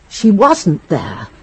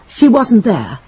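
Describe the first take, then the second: First: One word is emphasized more than the others. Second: Every word gets the same emphasis. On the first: "As if to confirm some suspicion" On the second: "You said it like this. With an equal emphasis on every word"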